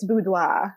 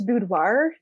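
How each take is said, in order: First: It is said with a French pronunciation. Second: It is said with an American pronunciation. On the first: "If you're French, it's boudoir" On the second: "in the States, it's boudoir"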